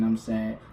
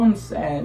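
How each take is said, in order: First: It is said in a flat, monotone voice. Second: It is said in a lively, emotional voice. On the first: The speaker calls it wrong. "your voice should not be like this with every emotion" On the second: The speaker calls it right. "you supposed to be able to hear the fucking emotion in your voice"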